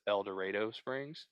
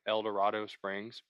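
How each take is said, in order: First: It is said the local way. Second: It is said the way it looks. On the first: "but it's El Dorado Springs" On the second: "it's like El Dorado Springs"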